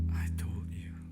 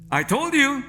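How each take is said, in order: First: It is said in a gentle, loving tone. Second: It is said in a smug, reproachful tone.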